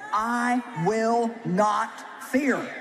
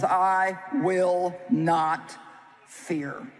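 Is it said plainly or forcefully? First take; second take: forcefully; plainly. First: It is said forcefully, with strong conviction. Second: It is said in a plain, ordinary way.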